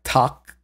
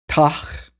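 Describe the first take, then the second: First: The word ends in a crisp k sound. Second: The word ends in a breathy ch sound. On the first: The speaker calls it right. "Well, really more like Tak" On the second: The speaker calls it wrong. "we have Tach"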